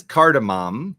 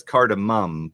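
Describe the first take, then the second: First: "cardamom" ending in a full "mom"; first pronunciation. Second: "cardamom" ending in a reduced "mum"; second pronunciation. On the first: Polling viewers on who says it this way, "cardamom" ending like "mom". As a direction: say "cardamom" with a clear open "ah" in the last syllable. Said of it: "Put a one". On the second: Polling viewers on the other way, "cardamom" ending like "mum". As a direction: say "cardamom" with a short, weak vowel in the last syllable. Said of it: "Put a two". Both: Shown as a demonstration.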